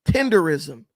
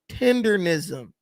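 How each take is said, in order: First: There is no n sound before 'ism'. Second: There is an n sound before 'ism'. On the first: The speaker calls it wrong. "Why does she repeatedly pronounce this tenderism?" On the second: The speaker calls it right. "It's tendernism"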